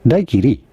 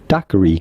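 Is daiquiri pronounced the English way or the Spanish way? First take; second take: Spanish; English. First: The word has a Spanish pronunciation. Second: The word has an English pronunciation. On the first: "In Spanish, this word is usually pronounced as daiquiri" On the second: "in English, the name of this cocktail is usually said as daiquiri"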